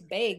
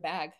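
First: The vowel has a flat Midwestern sound. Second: The vowel has a plain non-Midwestern sound. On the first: This is how the woman being described says it. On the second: This is the usual way to say it.

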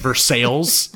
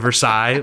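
First: It is pronounced the local Indiana way. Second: It is pronounced the familiar French way. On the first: This is how the town itself says the name. "There's Versailles instead of" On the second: This is how outsiders would read the name. "instead of Versailles"

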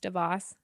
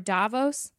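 First: It is said in the local pronunciation. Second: It is said in an American pronunciation. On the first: The speaker calls it right. "but it's actually pronounced Davos" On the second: The speaker calls it wrong. "I think Americans say it Davos"

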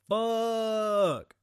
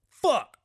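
First: It is an awed, admiring exclamation. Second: It is a sharp cry of pain. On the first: The speaker admires a car. "That's a dope-ass car" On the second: The speaker has stubbed a toe. "Hit my toe"

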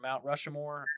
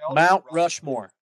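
First: Rushmore is said with an extra third syllable. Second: Rushmore is said with just two syllables. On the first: The speaker calls it wrong. "Why are you throwing an extra syllable in there?" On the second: The speaker calls it right. "Much better"

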